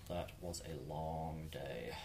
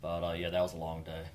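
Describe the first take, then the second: First: Weary slow quiet. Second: Said in the usual way. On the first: Shown as a demonstration.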